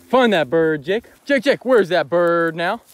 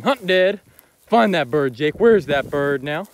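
First: Loud, slow urging call, rising; loud dog command. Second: Loud, slow call to a dog, rising; loud dog command. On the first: Real, not acted. Hunter urging his dog to find the bird, loud. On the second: Shown as a demonstration. Showing viewers how he urges the dog, loud and slow. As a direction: call it out to the dog across the field. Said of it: "associate finding dead birds with me saying".

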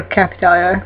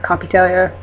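First: Capitalia with CAP as in hat; alternative pronunciation. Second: Capitalia starting "kop", open AH; alternative pronunciation. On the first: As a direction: say Capitalia starting "kap", flat A. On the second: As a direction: say Capitalia as "kah-pi-TEL-ya". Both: Shown as a demonstration. Trying out pronunciations of a name.

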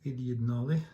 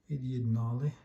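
Both takes have the same delivery.

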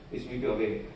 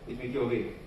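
Both takes have the same delivery.

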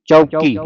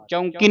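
First: ਚੌਕੀ with a pure oral au; no nasal. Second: ਚੌਂਕੀ with an n sound before k; nasalised first vowel. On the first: Teacher correcting student's reading, ਚੌਕੀ without any nasal. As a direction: go straight from au to k in ਚੌਕੀ. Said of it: "ਬਿੰਦੀ ਤੋਂ ਰਹਿਤ". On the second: Teacher showing student the mistake, ਚੌਂਕੀ with nasal au. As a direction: send the au of ਚੌਂਕੀ through the nose. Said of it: "ਚੌਂਕੀ ਨਹੀਂ ਪੜ੍ਹਨਾ ਇਹਨੂੰ". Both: Shown as a demonstration.

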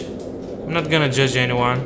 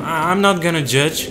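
First: Slow, deliberate I'm not gonna judge anyone. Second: Higher, louder burst of I'm not gonna judge. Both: Real, not acted.

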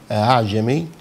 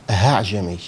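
First: أعجمي with its second hamza softened between hamza and fatha; eased hamza. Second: أعجمي said as هعجمي with a clear h in place of the hamza; wrong h for hamza. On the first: Teacher showing students the correct Hafs reading of أعجمي. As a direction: say أعجمي with the hamza blurred toward the vowel. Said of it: "فبدل ما يقول". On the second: Teacher imitating the mistaken reading of أعجمي for students. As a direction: swap the hamza of أعجمي for a plain h. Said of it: "فيقولها هاء صريحة كده". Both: Shown as a demonstration.

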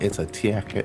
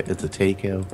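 First: "taco" said as tee-YA-koh; quoted odd pronunciation. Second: "taco" said as TAY-koh; quoted alternative pronunciation. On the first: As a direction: put a y-glide after the T in "taco". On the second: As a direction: give "taco" an AY in the first syllable. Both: Retold or imitated. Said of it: "She's like".

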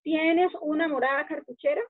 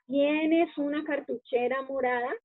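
First: Calco palabra por palabra del inglés; traducción literal. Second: Said in the usual way. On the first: Shown as a demonstration. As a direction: lectura literal que suena rara. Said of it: "como si fuera en español". ("morada cartuchera", orden del inglés)

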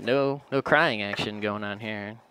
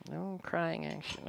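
First: Said in the usual way. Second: Much softer, slow, half to herself; quiet repeat. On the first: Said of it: "No onion crying". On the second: Shown as a demonstration. Cook repeats the line softly to herself, quiet and slow. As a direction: murmur it again under her breath.

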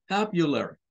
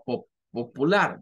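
First: Popular said papyuler with a schwa; the right way: papyuler, short schwa; correct English. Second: Popular said Spanish pop-u-lar; wrong Spanish way. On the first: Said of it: "No, es popular". (popular bien dicho, papyuler) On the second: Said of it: "no lo debemos de pronunciar como". (popular mal dicho, a la española) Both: Shown as a demonstration.

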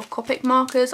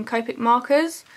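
First: "Copic" with a short o, like "cop-ick"; short-o pronunciation. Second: "Copic" with a long o, like "cope-ick"; long-o pronunciation. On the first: Vlogger offering another way to say the brand, "Copic" said COP-ick. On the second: Vlogger unsure of the marker brand's name, "Copic" said COPE-ick. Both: Shown as a demonstration. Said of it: "I don't know how they're pronounced".

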